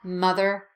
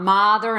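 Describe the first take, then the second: First: The first vowel is a small 'uh' sound. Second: The first vowel is an open 'ah' sound. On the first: The speaker calls it right. "They're both pronounced with the uh sound" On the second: The speaker calls it wrong. "not the ah sound. So not mother and brother"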